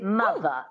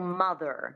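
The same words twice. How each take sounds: First: It is said in a transatlantic accent. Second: It is said in a standard American accent.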